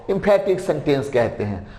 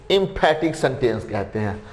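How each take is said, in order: Both takes have the same delivery.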